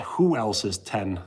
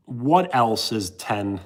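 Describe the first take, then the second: First: "Who" stressed, slowed, a bit lower. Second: "What" stressed and drawn out, very slow. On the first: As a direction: lean on "Who", as in "Who else is ten?". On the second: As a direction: lean on "What" slowly, as in "What else is ten?". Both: Shown as a demonstration.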